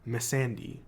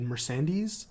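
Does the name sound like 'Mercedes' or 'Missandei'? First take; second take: Missandei; Mercedes. First: The name sounds like Missandei. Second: The name sounds like Mercedes. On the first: The speaker calls it right. "she plays a character named Missandei" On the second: The speaker calls it wrong. "I pronounced it wrong last week. I said Mercedes"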